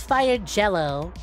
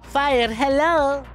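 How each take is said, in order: First: The name begins with a J sound. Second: The name begins with an H sound. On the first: The speaker calls it right. "Or I guess Fire Jello" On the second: The speaker calls it wrong. "my Mexican ass wanted to pronounce a J with a sound"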